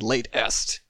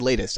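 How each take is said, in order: First: It is said with a beat between syllables. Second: It is said as one smooth word. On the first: The speaker calls it right. "I said Late Est. So there's your brackets. There's the beat" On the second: The speaker calls it wrong. "I didn't say latest"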